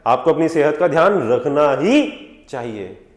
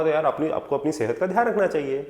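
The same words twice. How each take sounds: First: Slow, with "रखना ही" drawn out and punched; strong advice. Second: Said in the usual way. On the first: Acted. Doctor advising a patient on health, stressing "ही" strongly. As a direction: hold "ही" long for insistence. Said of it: "strong advice". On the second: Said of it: "simple तरीके से बोलूंगा".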